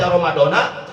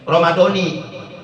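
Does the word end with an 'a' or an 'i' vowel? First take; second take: a; i. First: The word ends with an 'a' vowel. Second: The word ends with an 'i' vowel. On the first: It is cut off, so which Ramadan is unclear. The speaker calls it wrong. "dibaca nasob" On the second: It is tied to this year's Ramadan. The speaker calls it right. "kalimat Ramadannya dibaca C R"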